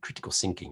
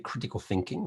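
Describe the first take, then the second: First: The word begins with an s sound. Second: The word begins with a th sound.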